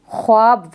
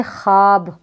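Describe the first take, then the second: First: ख्वाब with the w sounded, khwaab; as written. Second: ख्वाब said khaab, without any w; silent waw. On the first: Teacher showing how it is written, ख्वाब as khwaab. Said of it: "ये ख्वाब दिख रहा है लिखने में". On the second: Teacher showing how it is read, ख्वाब as khaab. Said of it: "किस तरीके से पढ़ेंगे". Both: Shown as a demonstration.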